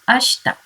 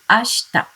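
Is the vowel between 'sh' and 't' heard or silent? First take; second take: silent; silent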